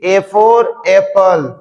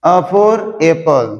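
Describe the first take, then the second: First: A for apple with A said as ay, very slowly; slow drawn-out A as ay before for apple; alphabet-name A. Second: A for apple with A said as a short a, very slowly; slow classroom recital with a short a; short a sound. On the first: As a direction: spell it out like the alphabet chant, A as ay. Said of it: "आपको ऐसे नहीं पढ़ाया होगा sir". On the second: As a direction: open a instead of ay, drawn out slowly. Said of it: "sentence में बोलोगे तो आपको बोलना पड़ेगा अ". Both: Shown as a demonstration.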